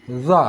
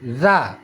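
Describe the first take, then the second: First: "Za" with tongue tip out, root raised; heavy emphatic TH of "this" in "Za"; thick za. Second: "Za" with tongue tip out, root flat; light TH of "this" in "Za"; thin za. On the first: Teacher introducing two letters, "Za" made thick. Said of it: "Kalau ingin tebal". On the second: Teacher introducing two letters, "Za" kept thin. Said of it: "Itu tipis". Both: Shown as a demonstration.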